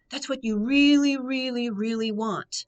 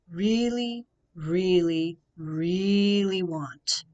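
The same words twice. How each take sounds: First: Higher, louder "really" repeated; emphatic really. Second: Slow, stretched "really, really, really"; slow, stretched repeated "really"; drawn-out really. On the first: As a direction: press on each "really, really". Coach repeating his answer back. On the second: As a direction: linger on each "really". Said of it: "I want you to think about this". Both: Real, not acted.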